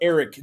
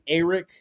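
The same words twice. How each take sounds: First: The first vowel is a plain 'e' sound. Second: The first vowel is an emphasized 'a' sound. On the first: The speaker calls it right. "just as if it were spelled E R I C" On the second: The speaker calls it wrong. "like like they emphasize the A"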